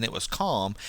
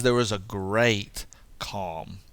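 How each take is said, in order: First: Said in the usual way. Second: "great" stretched out, then a pause; weighty, drawn-out "great"; stress on great. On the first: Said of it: "Mark doesn't just say". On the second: Shown as a demonstration. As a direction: hold "great" before landing on "calm". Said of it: "He says there was a great calm".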